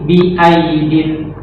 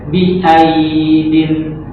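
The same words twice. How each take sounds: First: The vowel in the word is kept short. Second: The vowel in the word is drawn out long. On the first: The speaker calls it right. "tapi bi aidin" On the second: The speaker calls it wrong. "nggak boleh dipanjangkan, nggak boleh bi aidin"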